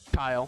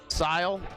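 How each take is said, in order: First: The name begins with a k sound. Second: The name begins with an s sound. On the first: It is how he says his own name. "But how does he pronounce it?" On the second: It is a teasing way to say his name. "That's how we make fun of him"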